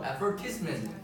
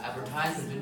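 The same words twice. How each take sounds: First: "advertisement" stressed on VER; teacher's correction. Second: "Advertisement" with TISE like "ties"; long I. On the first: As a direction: say "advertisement" as ad-VER-tis-ment. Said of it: "my teacher asked me". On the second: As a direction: say "Advertisement" as ad-ver-TIZE-ment. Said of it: "I said, like". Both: Retold or imitated.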